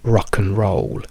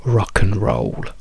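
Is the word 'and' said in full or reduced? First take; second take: reduced; reduced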